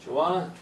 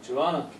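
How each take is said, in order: First: The words are reduced and run together. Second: The words are reduced and run together.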